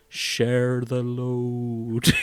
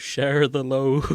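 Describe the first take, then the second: First: Drawn-out, very slow quote; slow-motion Sam. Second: Slow, stretched echo of the line; slow-motion repeat. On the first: Friend quotes Sam in slow motion, very slow. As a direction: stretch every word like a slow-motion film. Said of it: "Sam is just saying in slow motion". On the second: Friend repeats Sam's line for laughs, slowly. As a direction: drag it out again for a laugh. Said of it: "saying in slow motion". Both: Retold or imitated.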